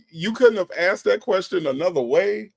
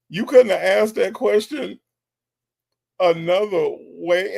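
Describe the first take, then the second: First: Higher-pitched, baffled question; raised, incredulous query in one run. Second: Incredulous repeat, dragging out "another way"; emphatic disbelief. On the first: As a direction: challenge him in disbelief. Baffled host challenges the man. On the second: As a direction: pause before "another way" and stretch it. Repeats challenge with more emphasis. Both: Real, not acted.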